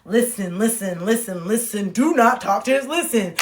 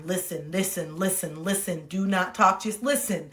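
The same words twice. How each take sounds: First: Firmer mantra, building in volume; insistent self-coaching. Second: Soft, low repeated self-reminder; inner self-coaching. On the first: Ordering herself not to talk, increasingly insistent inner voice. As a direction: press harder on each repeated order to yourself. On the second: Telling herself to listen while friend talks, quiet inner self-coaching. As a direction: murmur it as a private mantra. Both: Retold or imitated. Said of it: "I would be in my mind".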